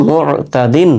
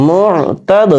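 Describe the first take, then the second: First: "মুতাদিন" slow, running on into a full "দিন"; drawn-out "মুতাদিন", final syllable sounded in full; joined reading. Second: "মুতাদ" higher, halted on a bounced final d; recited "মুতাদ", popped d at the end; stopped reading. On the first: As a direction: read "মুতাদিন" connected with no stop on the d. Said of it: "মিলিয়ে পড়লে". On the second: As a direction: stop on "মুতাদ" and release the "দ" with a small echo. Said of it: "মিলিয়ে পড়লে মুতাদিন". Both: Shown as a demonstration.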